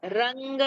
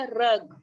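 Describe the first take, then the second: First: रंग said with a clear nasal ng ending; रंग with the nasal sound. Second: रग said short, no nasal; रग without any nasal; plain रग. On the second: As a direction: clip रग with a bare g, no ng. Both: Shown as a demonstration. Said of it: "ग का उच्चारण अलग है".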